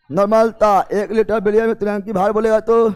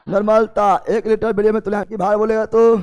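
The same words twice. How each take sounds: The two takes are said the same way.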